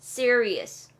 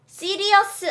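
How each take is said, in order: First: "Serious" said the English way, stressed first syllable, falling; "Serious" as SEER-ee-us, no added vowel at the end; English pronunciation. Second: "serious" said syllable by syllable as Korean si-ri-eo-seu; wrong-example "serious" in flat Korean syllables, si-ri-eo-seu; Korean-accented pronunciation. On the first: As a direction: model "Serious" with an English r and a bare final s. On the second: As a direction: say "serious" the Koreanized way, with a full final vowel. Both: Shown as a demonstration. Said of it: "자, 발음 serious 아니에요".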